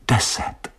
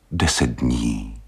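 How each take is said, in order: First: Breathed whisper; a whispered echo. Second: Slow, gentle plea; a wife pleading gently, slow. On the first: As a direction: whisper the word to oneself. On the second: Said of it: "řekla prosepně". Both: Acted.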